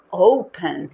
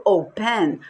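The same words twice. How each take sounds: First: "open" stressed loudly on the O; stress on first syllable. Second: "open" with the stress shifted onto the last syllable; wrong final stress. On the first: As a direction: say "open" as O-pen, ending light. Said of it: "a sílaba forte não é o pen". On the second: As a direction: say "open" as o-PEN. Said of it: "Eu não falo open". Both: Shown as a demonstration.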